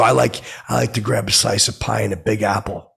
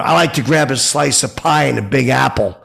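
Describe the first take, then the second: First: Said in the usual way. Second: Raised, louder boast. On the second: Retold or imitated. Fan repeats his line to the guitarist, louder and higher. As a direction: pipe up so he hears it. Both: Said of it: "so I said aloud".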